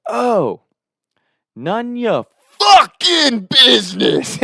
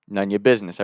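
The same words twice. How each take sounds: First: High, drawn-out mock scream; imitated scream. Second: Said in the usual way. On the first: Buddy yelling in his friend's backswing, screamed. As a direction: belt it out slowly, way up high. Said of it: "And he screams".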